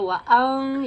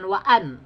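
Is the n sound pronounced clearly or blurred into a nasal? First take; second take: blurred; clear. First: The n sound is blurred into a nasal hum. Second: The n sound is pronounced clearly and fully. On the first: The speaker calls it right. "Jadi suaranya disamarkan. Tapi wa'ang ya" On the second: The speaker calls it wrong. "Jangan wa'an"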